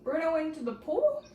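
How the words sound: It is asked with a questioning, rising tune. The speaker is unsure and is asking. "if we wanted to change it to a question mark"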